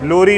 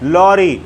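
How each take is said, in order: First: The first vowel is closer, as in 'low'. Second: The first vowel is open, as in 'law'. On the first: The speaker calls it wrong. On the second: The speaker calls it right.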